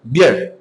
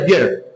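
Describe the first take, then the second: First: The vowel is said short and clipped. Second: The vowel is said short and clipped.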